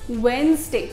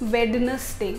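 First: The middle d sound is left silent. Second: The middle d sound is pronounced clearly. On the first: The speaker calls it right. "डी को भूल जाइए, उसको silent रहने दीजिए" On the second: The speaker calls it wrong. "हम ये जो डी होता है ना इसके अंदर, इसको प्रोनाउंस करते हैं"

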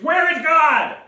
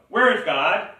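First: It is asked loudest, with a raised voice. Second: It is asked more sternly and louder.

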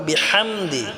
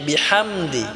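No difference in how they are said.

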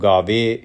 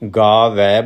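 First: The word ends in a plain 'e' vowel. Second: The word ends in an 'ai' vowel. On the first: The speaker calls it wrong. "ਗਾਵੇ ਨਹੀਂ ਬੋਲਣਾ, ਵਵੇ ਦੀ ਇੱਕ ਲਾਂ ਨਹੀਂ ਲਾਉਣੀ" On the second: The speaker calls it right. "ਇਸ ਲਈ ਗਾਵੈ ਬੋਲਣਾ ਹੈ"

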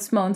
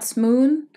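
First: The vowel sounds like the one in own. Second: The vowel sounds like the one in moon. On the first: The speaker calls it right. "but Simone style" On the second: The speaker calls it wrong. "So not Smoon, as in the moon"

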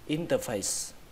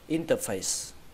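The two takes are said the same way.

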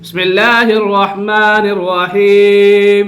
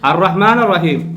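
First: The words link straight into rahman without a stop. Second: A glottal stop begins the word before rahman. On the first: The word joins the one before, so its first sound drops. "ഇപ്പൊ ഉച്ചരിച്ചോ? ഇല്ല" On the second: The word stands alone, so its first sound is kept. "ഹംസ ഉച്ചരിച്ചോ? ഉച്ചരിച്ചു"

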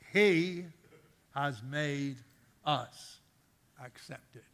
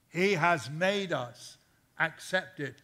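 First: It is said slowly and deliberately. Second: It is said at a normal pace.

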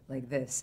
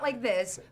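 First: It is said in a put-on character voice. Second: It is said in the speaker's ordinary voice. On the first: This is how the character talks. The speaker calls it right. "She speaks like this" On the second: This is not how the character talks. The speaker calls it wrong. "not like this"

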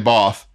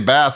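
First: It is said with a British pronunciation. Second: It is said with an American pronunciation. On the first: "The British say Both" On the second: "We say Bath"

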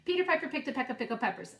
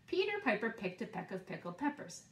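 First: It is said faster still. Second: It is said a little faster.

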